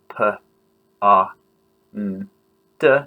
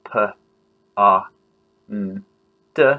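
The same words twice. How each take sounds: First: Each sound is said separately, one by one. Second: The same.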